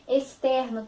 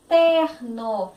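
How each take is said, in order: First: Said in the usual way. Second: Externo slowly, ex as es. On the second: Shown as a demonstration. Teacher to pupils, slow externo with es. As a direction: draw out externo with es. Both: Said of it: "E e o som do X, S".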